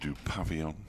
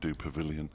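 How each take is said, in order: First: It is said with a French-style pronunciation. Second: It is said with an extra vowel sound added. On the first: "turning it French" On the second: "putting an extra I in there"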